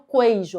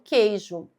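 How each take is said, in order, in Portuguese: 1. O u depois do q é pronunciado. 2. O u depois do q é mudo. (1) "porque eu não falo queijo" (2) "eu falo queijo, um som só"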